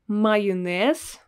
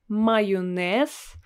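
No difference in how they are said.

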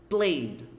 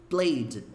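Both takes have the same delivery.

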